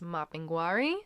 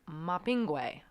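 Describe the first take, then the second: First: The name is said with an R sound. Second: The name is said without an R sound. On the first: "most commonly that you'll hear" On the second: "Don't know where the R disappears"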